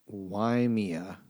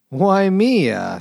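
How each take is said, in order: First: Said in the usual way. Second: A high, louder, hammed-up sad sigh of a word; mock sad Mario. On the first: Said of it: "Waimea," said Mario sadly". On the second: Reading a beer label, lamenting it as sad Mario. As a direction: play it like a crushed cartoon plumber. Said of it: "said Mario sadly".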